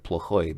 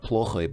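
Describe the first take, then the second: First: Плохой with the stress on the last syllable, plo-KHOY; плохой end-stressed, first syllable reduced. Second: Плохой with the stress moved onto the first syllable, PLO-khoy; плохой mis-stressed on its first syllable. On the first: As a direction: lean on the final "ой" of плохой. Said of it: "apparently you stress the, the ending". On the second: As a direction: hit "плo" in плохой and leave the ending weak. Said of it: "but плохой, because apparently you stress". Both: Shown as a demonstration.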